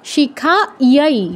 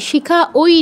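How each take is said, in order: First: The word ends in a 'yai' sound. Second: The word ends in an 'oi' sound. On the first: The speaker calls it right. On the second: The speaker calls it wrong.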